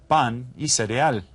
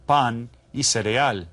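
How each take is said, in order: Both takes have the same delivery.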